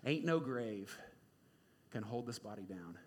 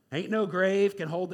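First: Soft, low, half-sung lyric; softly crooned gospel line; hushed sung quote. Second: Louder, slow, strained lyric; slow strained gospel line; straining against the grave. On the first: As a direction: hum the line quietly, almost to yourself. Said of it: "my soul cries out with [name]". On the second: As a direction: push each word out like something holds you down. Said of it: "it sounds like the grave is, like, gripping him". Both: Retold or imitated.

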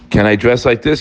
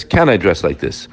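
First: Rising tune on "this", a genuine asking question. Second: Lower, falling tune from "Can", a musing second asking; lower doubtful repeat. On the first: Preacher voicing a congregant's honest question, rising tune. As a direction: ask "Can I dress like this?" with the voice lifting on "this". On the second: Preacher repeating the congregant's question to himself, low and falling. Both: Shown as a demonstration. Asks halachic questions twice.

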